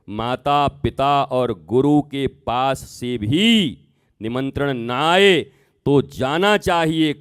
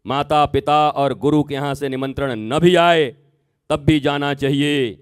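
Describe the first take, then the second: First: Slow, spaced-out repeat with pauses between phrases; deliberate restatement. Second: Said in the usual way. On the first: Acted. Shiva restating the rule to Sati, slow and deliberate. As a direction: lay each word down slowly, like a final teaching. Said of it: "तब भगवान शंकर ने कहा". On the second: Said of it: "बोला".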